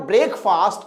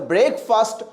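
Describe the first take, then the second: First: Breakfast as "brake-faast", with a long open second vowel; mistaken pronunciation. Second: Breakfast with a short second vowel, "fust"; dictionary pronunciation. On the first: Teacher showing students the disputed word, spelling pronunciation. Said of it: "कोई मानेगा ही नहीं". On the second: Teacher correcting a doubting student, careful dictionary pronunciation. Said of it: "ये sir ब्रेकफास्ट कैसे हो गया". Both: Shown as a demonstration.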